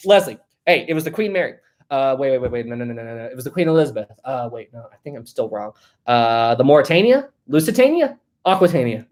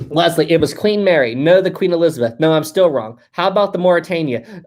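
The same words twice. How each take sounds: First: Acted-out fumbling, muttered second-guessing; hesitant joke delivery ending in questioning guesses; mock confusion. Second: Said in the usual way. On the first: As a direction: play someone guessing wrong and correcting themselves. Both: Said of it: "let me do this".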